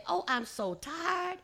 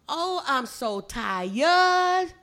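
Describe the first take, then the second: First: "tired" in standard English, higher voice. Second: "tired" hugely stretched as "tie-yud", louder; Gullah TIRED. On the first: Teacher voicing visitors coming home, standard English "tired", higher. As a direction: say "tired" plainly in one beat, pitched up. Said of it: "go home and you say". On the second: Teacher demonstrating Gullah homecoming sigh, "tired" slow and loud as "tie-yud". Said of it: "In the Gullah language". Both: Shown as a demonstration.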